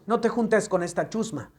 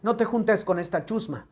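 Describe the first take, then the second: First: It is said in a neutral Spanish accent. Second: It is said in a neutral Spanish accent.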